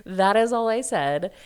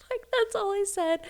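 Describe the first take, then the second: First: "is" pushed hard, louder, rising at the end; stress on is. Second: "that's all I said" squeaked high through laughter; laughing, high. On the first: Shown as a demonstration. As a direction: lean on "is" to insist. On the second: Real, not acted.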